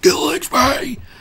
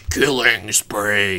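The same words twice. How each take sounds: First: It is shouted like the guy from 300. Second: It is said in a normal voice.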